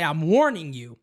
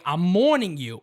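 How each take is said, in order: First: Said in the usual way. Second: "warning" coming out as "morning" in New York Italian; New York Italian accent. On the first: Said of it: "he was trying to say". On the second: Retold or imitated. Host quoting his father, heavy New York Italian accent. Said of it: "New York Italian accent".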